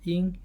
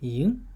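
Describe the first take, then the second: First: The pitch stays high and level. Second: The pitch rises from mid to high. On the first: "first first tone" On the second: "second tone would be yin"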